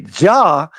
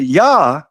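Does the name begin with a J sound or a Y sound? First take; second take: J sound; Y sound. First: The name begins with a J sound. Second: The name begins with a Y sound. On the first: The speaker calls it wrong. "you say Jah" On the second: The speaker calls it right. "would call her Yah instead of Jah by her real name"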